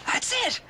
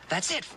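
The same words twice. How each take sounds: First: High, thrilled shout of success; That's it! cried out in delight; excited cry. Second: Said in the usual way. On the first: Real, not acted. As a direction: burst out with joy at the breakthrough.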